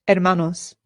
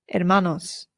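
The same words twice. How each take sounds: No difference in how they are said.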